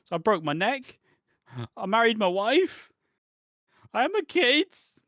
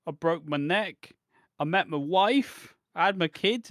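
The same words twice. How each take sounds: First: Much higher, much louder, slow escalating cry; breathless mock wail. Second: Higher, louder, slow mournful list; mock tragic list. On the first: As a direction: crank the tragedy up to a frantic howl. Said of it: "he doesn't stop to catch a fucking breath". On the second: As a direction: recite each milestone like a tragedy. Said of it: "Tommy Dreamer's like".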